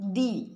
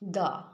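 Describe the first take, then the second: First: The word ends with a long ee vowel. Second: The word ends with a short uh vowel. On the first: The next word starts with a vowel. "এটা তখন pronounce করব দি" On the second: The next word starts with a consonant. "তখন সেখানে আমরা pronounce করব দা"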